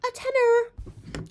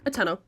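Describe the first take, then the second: First: Very high, slow squeal; squealed repeat. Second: Said in the usual way. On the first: Acted. Boasting of the bargain dress price, squealed.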